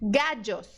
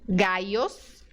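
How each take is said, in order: First: The middle consonant sounds like English j. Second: The middle consonant sounds like English y. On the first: "Outro som é o D J" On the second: "com som de I mesmo do português"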